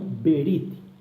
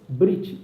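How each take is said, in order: First: A short e sound separates the first consonants. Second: The first two consonants are said together. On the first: The speaker calls it wrong. "e não Berit" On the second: The speaker calls it right. "Fala-se Brit"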